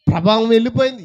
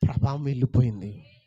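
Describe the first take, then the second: First: వెళ్ళిపోయింది repeated much louder and higher; emphatic repeat. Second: Said in the usual way. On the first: Shown as a demonstration. Jesus insisting power left him, loud emphatic repeat. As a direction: hammer the repeat home.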